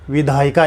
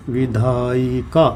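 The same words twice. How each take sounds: First: Said in the usual way. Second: Slow, stretched-out "विधायिका" with the syllables separated; "विधायिका" slowly broken into parts, lower and measured. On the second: Shown as a demonstration. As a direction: draw out each syllable of "विधायिका" for the class. Teacher spells out the example word.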